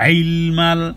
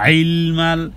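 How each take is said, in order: No difference in how they are said.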